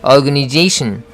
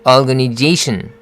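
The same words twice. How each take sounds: No difference in how they are said.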